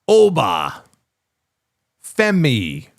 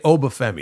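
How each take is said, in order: First: The name is over-enunciated with a break between parts. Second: The name is said smoothly as one word. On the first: "he has to over-enunciate everything" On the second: "He doesn't just say Obafemi"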